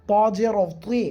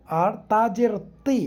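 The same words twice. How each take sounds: First: তি said thick and heavy; demonstrating a heavy তি. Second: তি said thin and light; demonstrating a light তি. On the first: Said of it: "তি মোটা করে". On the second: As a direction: keep the তি in তা জের তি thin. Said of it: "দুইটা হরফ দুইভাবে উচ্চারণ করলাম". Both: Shown as a demonstration.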